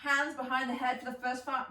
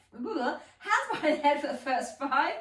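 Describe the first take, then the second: First: Said in the usual way. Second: Laughing through a correction. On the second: Real, not acted. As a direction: giggle mid-sentence at own slip.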